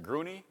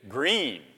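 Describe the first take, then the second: First: It is said in two syllables ending in nee. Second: It is said in one syllable, like green. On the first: The speaker calls it wrong. "Is it Gruney" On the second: The speaker calls it right. "Green. Neither one"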